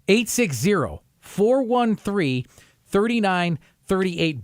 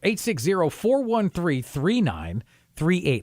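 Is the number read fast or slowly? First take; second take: slowly; fast. First: The number is read at a slow pace. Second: The number is read at a fast pace.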